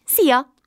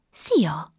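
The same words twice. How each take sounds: First: "Szia!" called out higher and louder; the tiny fairy chirping a bright hello; fairy says hello to the surprised girl, higher and louder; cheerful fairy greeting. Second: Said in the usual way. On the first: Acted.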